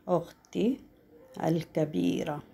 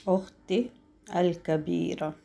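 No difference in how they are said.

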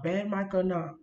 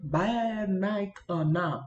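First: Said in the usual way. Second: Slow, drawn-out "Bad mic or not"; exaggerated enunciation. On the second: Shown as a demonstration. Reassuring viewers despite the microphone, "Bad mic or not" slowly enunciated. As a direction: stretch out each word of "Bad mic or not". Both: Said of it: "I'm gonna enunciate my words".

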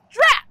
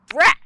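First: A high, loud witchy drat; annoyed witch, high and loud; witch's drat. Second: A loud, sharp mummy drat; frustrated mummy, louder; mummy's drat. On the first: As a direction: snap it out like a cross witch. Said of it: "said the witch". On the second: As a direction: spit out the mummy's annoyed drat. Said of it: "said the mummy". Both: A narrator's reading.

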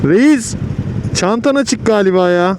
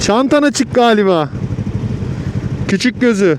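First: Shouting over traffic; loudly calling to a rider. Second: Calling out louder. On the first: Motorcyclist calls to another rider. (yüksek sesle seslenme) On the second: Repeats after rider asks Efendim. (yavaşça bağırarak tekrar) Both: Real, not acted.

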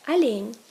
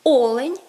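First: Олень said as Russian alyen, stressed on -ЛЕНЬ; Russian end stress. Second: Олень punched loud on О-; Ukrainian first-syllable stress. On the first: Teacher gives Russian form, олень stressed on last syllable. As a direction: reduce the O and hit the end of олень. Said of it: "відповідає олень". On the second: Teacher gives Ukrainian form, олень stressed on first syllable. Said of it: "в українському олень". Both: Shown as a demonstration.

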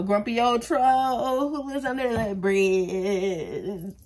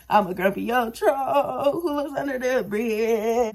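First: Slow, dragged-out grumpy troll voice; grumpy old troll. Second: Slow troll voice breaking into laughter; laughing troll. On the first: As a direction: growl it out like a troll under a bridge. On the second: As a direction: laugh through the troll line. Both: Pretend. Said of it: "I look like a".

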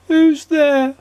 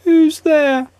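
First: High, squeaky and mournful; small, gloomy, squeaky voice calling out; sad squeaky voice. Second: High, squeaky and mournful, louder; the same squeaky sad voice repeated. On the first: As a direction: squeak it out sadly from behind the door. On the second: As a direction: call it again, squeaky and glum. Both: A narrator's reading. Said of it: "A sad, squeaky sort of voice".

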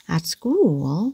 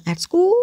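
First: At school with at low and school rising. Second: At school with both words rising, sounding funny; all rising. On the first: Teacher modelling the right tune, at low and school rising. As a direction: drop at and lift school. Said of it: "at này mình đi xuống và school đi lên". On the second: Teacher showing the funny wrong tune, rising all through. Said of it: "nghe rất là buồn cười". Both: Shown as a demonstration.

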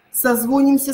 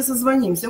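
First: Созвонимся stressed on «зво»; Созвонимся, second syllable stressed. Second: Созвонимся stressed on «ним»; созвонимся, third syllable stressed. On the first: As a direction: hit a full О in Созвонимся. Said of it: "Вот этот, э, вариант". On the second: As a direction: hit the И in созвонимся. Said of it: "уйдёт на «и»". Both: Shown as a demonstration.

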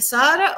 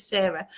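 First: Sarah said as SAH-ra; "ah" pronunciation. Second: Sarah said as SAIR-a; "air" vowel in the first syllable of Sarah; "air" pronunciation. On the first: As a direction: open "ah" in the first syllable of Sarah. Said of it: "he might pronounce it". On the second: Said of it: "or he might pronounce it". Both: Shown as a demonstration.

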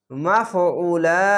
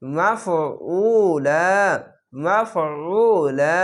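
First: মাফউলা slow with a held final vowel; stretched stop. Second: মাফউলা very slow with a thick squeezed ain; heavy throat ain. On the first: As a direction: recite মাফউলা slowly, stretch then stop. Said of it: "এক আলিফ টেনে থামবেন". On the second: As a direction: press the throat on মাফউলা, drawn long. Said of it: "আইনটিকে মোটা করে গলা চিপে". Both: Shown as a demonstration.

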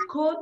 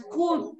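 First: "could" as "kud", short loose oo; silent L. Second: "could" as "cooood", tight oo; wrong long U. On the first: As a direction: say "could" to rhyme with "good", no L. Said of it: "la L no suena". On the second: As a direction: stretch "could" to rhyme with "food". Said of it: "no es could". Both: Shown as a demonstration.

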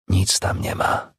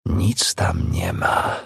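First: Slow, breath-only whisper to oneself; hushed and drawn out; whispered self-reassurance. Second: Very slow, half-voiced words to oneself; deliberate, lingering delivery; drawn-out self-reassurance. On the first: Acted. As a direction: whisper it slowly, convincing yourself. Reassuring herself at the door. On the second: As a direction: stretch every word right out. Repeats it to herself, slower.

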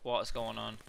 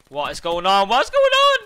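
First: Said in the usual way. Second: From loud to a high screaming shout; rising shout. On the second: Real, not acted. Gamer seeing an enemy glitch, shouting louder each time. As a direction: build the question into a scream.

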